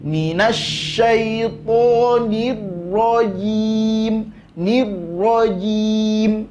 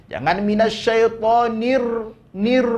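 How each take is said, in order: First: Nir rajim with one quick r tap, slow; single tap r. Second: Nir with the r trilled too long; over-roll the r in nir; wrong rolled r. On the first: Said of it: "berikan sifat inhiraf". (r sekali getar, langsung) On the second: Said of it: "ndak boleh ar". (nir dengan r bergetar berlebihan, salah) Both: Shown as a demonstration.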